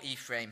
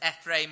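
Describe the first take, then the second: First: Ephraim with a long "ee" at the start; alternative pronunciation. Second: Ephraim with a short "eh" at the start; alternative pronunciation. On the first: Offering listeners another option, Ephraim opening on "ee". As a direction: say Ephraim as "EEF-raym". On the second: Offering listeners one option, Ephraim opening on "eh". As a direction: say Ephraim as "EFF-raym". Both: Shown as a demonstration. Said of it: "however you want to pronounce it".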